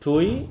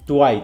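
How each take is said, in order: First: The syllable ends in an 'ee' vowel sound. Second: The syllable ends in an 'eye' vowel sound. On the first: The speaker calls it wrong. "এটা উচ্চারণ কিন্তু টুই না" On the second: The speaker calls it right. "টুয়াই, তাই তো?"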